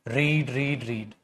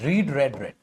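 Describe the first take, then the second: First: All three forms are said with the 'reed' vowel. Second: The last two forms are said with the 'red' vowel. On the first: The speaker calls it wrong. "तो रीड रीड नहीं" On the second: The speaker calls it right. "Spelling same रहती है, pronunciation बदलती है।"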